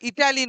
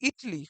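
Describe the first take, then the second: First: The word has three syllables, with a middle vowel. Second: The word has two syllables, the middle vowel dropped. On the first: The speaker calls it wrong. "কথাটা ইটালি নয়" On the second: The speaker calls it right. "কথাটা হচ্ছে ইটলি"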